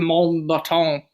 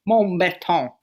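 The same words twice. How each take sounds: First: The name is said in a plain way. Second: The name is said in a fancy way.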